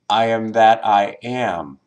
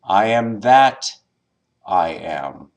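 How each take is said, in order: First: The stress is on the final am. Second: The stress is on the word that.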